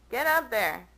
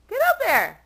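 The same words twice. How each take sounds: First: Said in the usual way. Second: High, loud exasperated shout. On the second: Real, not acted. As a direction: yell the cat up the cabinet. Coaxing cat onto cabinet.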